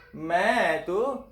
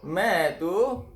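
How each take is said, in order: Both takes have the same delivery.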